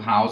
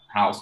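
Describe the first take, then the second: First: The word ends with a buzzing z sound. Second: The word ends with a hissing s sound. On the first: It is the verb. "house with a z sound" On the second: It is the noun. "house with a s sound"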